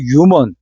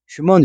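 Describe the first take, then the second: First: The word starts without an h sound. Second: The word starts with an h sound. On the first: "H가 묵음이에요. 그래서 일부 사람들은 이거를 유먼 이렇게 발음을 하는데" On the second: "이 H 발음을 살려주라 그래요. 그래서 휴먼"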